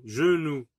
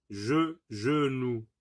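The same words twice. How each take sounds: First: Said in the usual way. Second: "genou" slowly, with "je" said alone first; syllable isolated. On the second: Shown as a demonstration. Teacher checking for an i sound, slowly isolating "je" in "genou". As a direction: break off "je", pause, then give the whole "genou". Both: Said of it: "on n'entend pas i".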